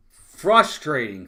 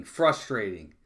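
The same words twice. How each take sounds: First: Slow, weighted "frustrating" with a heavy fall; drawn-out frustration. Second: Said in the usual way. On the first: Real, not acted. Fan telling his chat about the team, dragging out "frustrating". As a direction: let "frustrating" drag out, fed up. Repeats the word after the out.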